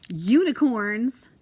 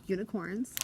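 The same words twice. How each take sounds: First: Delighted. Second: Said in the usual way. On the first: Real, not acted. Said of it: "Yeah, unicorns".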